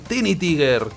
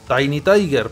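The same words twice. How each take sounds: First: The name is pronounced with Spanish vowel sounds. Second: The name is pronounced with English vowel sounds. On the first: "como se pronuncia españolizado" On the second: "porque es Tiny Tiger"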